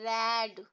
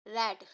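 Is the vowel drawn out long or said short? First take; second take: long; short. First: The vowel is stretched out long. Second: The vowel is said short and quick. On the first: The speaker calls it wrong. "क्या आप इसे ऐसे बोल सकते हैं रेड? नहीं ना" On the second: The speaker calls it right. "आप हमेशा कैसे पढ़ते हैं?"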